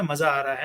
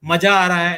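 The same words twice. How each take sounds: First: Maza is said with a z sound. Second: Maza is said with a j sound. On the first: The speaker calls it right. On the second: The speaker calls it wrong.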